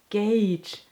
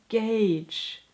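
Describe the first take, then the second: The two takes are said the same way.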